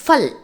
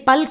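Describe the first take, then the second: First: ஃபல் opening on a clear F; correct F sound. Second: பல் with a plain P at the start; wrong P sound. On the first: Teacher correcting Hindi word for fruit, ஃபல் with an F sound. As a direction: say ஃபல் with F in place of P. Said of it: "Actually பல் கிடையாது". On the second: Teacher showing Tamil learners the mistake, பல் with a P sound. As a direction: say பல் opening on P, not F. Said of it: "பல் கிடையாது". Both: Shown as a demonstration.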